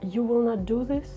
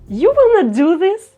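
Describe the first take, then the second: First: It sounds sad. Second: It sounds happy. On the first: "Let's say it with a sad emotion" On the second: "let's say it with a happy emotion"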